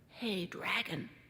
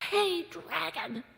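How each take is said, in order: First: It is whispered very softly. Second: It is shouted very loudly.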